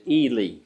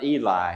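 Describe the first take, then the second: First: The name ends with a 'lee' sound. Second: The name does not end with a 'lee' sound. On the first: The speaker calls it right. "He pronounces it Ely, like Robert E. Lee" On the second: The speaker calls it wrong. "it's not Eli"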